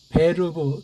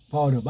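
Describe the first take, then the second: First: The r is rolled in a German style. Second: The r is said plainly in a Korean style. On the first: "발음도 베르브 독일식으로 해야 되는데" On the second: "그냥 우리식으로 해야 돼요"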